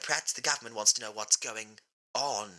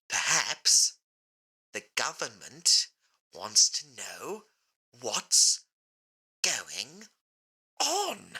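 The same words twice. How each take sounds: First: It is said at a normal pace. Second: It is said very slowly.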